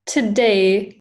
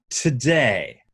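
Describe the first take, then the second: First: Today with a breathy t, learner copying; student repeating British aspirated t. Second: Today with a strong breathy t; British RP aspirated t. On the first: Acted. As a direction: copy the puffed t in today. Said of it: "Oh, that's brilliant". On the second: Shown as a demonstration. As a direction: model today with a puffed t. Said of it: "give that a try".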